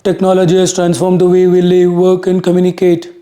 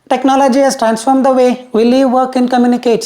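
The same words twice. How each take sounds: First: The voice is deep, thick and husky. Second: The voice is higher, thinner and sharper. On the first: The speaker calls it wrong. "Let's say you're speaking like this" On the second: The speaker calls it right. "Then it"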